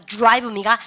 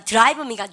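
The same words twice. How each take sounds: First: "드라이브입니까" starting joo-rai; English DR sound. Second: "드라이브입니까" starting deu-ra-i; Koreanized DR. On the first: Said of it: "디알은 뭐야". ("드라이브입니까"를 '주라이브'로 발음) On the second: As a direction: keep a separate deu in "드라이브입니까". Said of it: "D하고 R 발음이 있으면". ("드라이브입니까"의 '드'를 글자대로) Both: Shown as a demonstration.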